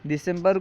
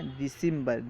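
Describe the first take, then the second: First: Said in the usual way. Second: دسمبر said "deesimbar", ee after d, i before m; Persian pronunciation. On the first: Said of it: "دسمبر کو فارسی میں". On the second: Shown as a demonstration. Teacher showing Persian December to students, Persian pronunciation. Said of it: "فارسی تلفظ میں یوں کہتے ہیں".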